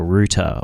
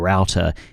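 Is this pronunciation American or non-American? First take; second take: non-American; American. First: It is said in a non-American pronunciation. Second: It is said in an American pronunciation.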